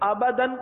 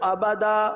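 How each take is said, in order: First: The word ends in a short 'an' sound. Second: The word ends in a long 'a' sound. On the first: The reading carries on without stopping. "دو زبر کی تنوین" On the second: The reading stops at this word. "الف سے بدلتے ہیں"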